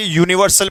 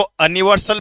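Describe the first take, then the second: First: यूनिवर्सल started with a clear 'you' sound; यूनिवर्सल said as 'you-niversal' with a y-glide; correct reading. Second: अनिवर्सल started with a short 'uh', no y-glide; अनिवर्सल said as 'uh-niversal'; wrong reading. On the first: Teacher gives students the right form: यूनिवर्सल starting on 'you'. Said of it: "यूनिवर्सल पढ़ते हैं". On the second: Teacher shows students the wrong way: अनिवर्सल with a plain 'a' start. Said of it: "अनिवर्सल पढ़ते हैं". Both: Shown as a demonstration.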